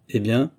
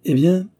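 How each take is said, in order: First: 'Eh bien' as a question rising at the end; expectant question. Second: 'Eh bien' pitched high and louder; unruffled reply. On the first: Visitor prompts for the answer. (« Eh bien » interrogatif, qui monte) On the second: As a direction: answer with a bold, lifted 'Eh bien'. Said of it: "répondit Holmes, imperturbable". (« Eh bien » lancé haut et fort) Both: A narrator's reading.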